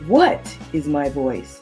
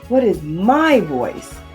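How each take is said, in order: First: The word 'what' is emphasized. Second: The word 'my' is emphasized. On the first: "place emphasis on just the first word" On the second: "then the third word"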